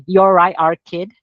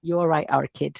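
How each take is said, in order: First: Loud Mancunian greeting; Mancunian accent. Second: Soft, relaxed Mancunian; quiet Mancunian accent. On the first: Showing the Manchester greeting to the interviewer, loud Mancunian. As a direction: say it like a Manchester local, punchy. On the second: Repeating the Manchester greeting for the host, softly Mancunian. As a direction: toss off the Manchester phrase quietly. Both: Shown as a demonstration. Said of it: "es como se dice en Manchester".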